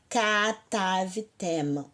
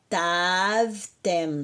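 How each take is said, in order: First: A full a vowel follows the first k. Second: No vowel follows the first k. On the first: The speaker calls it wrong. "não fala katavtem, por favor" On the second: The speaker calls it right. "É ktavtem"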